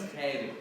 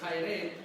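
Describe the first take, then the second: First: The first vowel is sounded as a plain 'e'. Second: The first vowel is sounded as the diphthong 'ai'. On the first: This is the later pronunciation. "Over time, it was pronounced as" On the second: This follows the spelling. "the way you would sound it out according to the letters"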